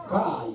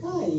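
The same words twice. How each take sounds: First: "Kai" said low and falling; low flat reading. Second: "Kai" said high, rising; high rising reading. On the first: Showing the group one intonation of "Kai". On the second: Showing the group another intonation of "Kai". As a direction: lift "Kai" up like a question. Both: Shown as a demonstration. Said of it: "coba dengan intonasi banyak".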